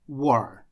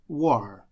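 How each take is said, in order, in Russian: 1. Звук T в середине пропадает. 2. Звук T в середине пропадает.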